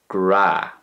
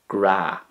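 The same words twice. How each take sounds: The two takes are said the same way.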